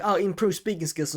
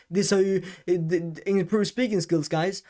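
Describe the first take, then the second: First: Each word weighted, raised pitch; deliberate emphasis on speaking skills; emphatic delivery. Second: Stumbling, stuttering mock youtuber pitch, higher; mock of careless rushed speech; sloppy old delivery. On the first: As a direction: lean on every word to show the new way. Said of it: "and then I talk to you". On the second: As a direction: rattle it off with hesitations. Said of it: "instead of me just". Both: Shown as a demonstration.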